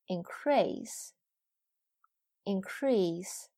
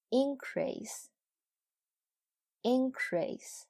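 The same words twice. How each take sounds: First: "increase" with light in, weight on CREASE; "increase" as a verb: in-CREASE, said twice; verb stress on second syllable. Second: "Increase" with high, punched IN, falling away on crease; "Increase" as a noun: IN-crease, said twice; noun stress on first syllable. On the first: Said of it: "后边是动词". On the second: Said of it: "前面是名词，后边是动词". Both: Shown as a demonstration.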